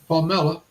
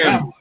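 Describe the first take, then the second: First: The name is said in a non-American way. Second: The name is said in an American way. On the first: "they pronounce her name Pamela" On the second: "Here in the states, we pro- pronounce her"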